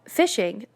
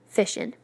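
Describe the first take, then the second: First: The word ends with an ng sound. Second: The word ends with a plain n sound.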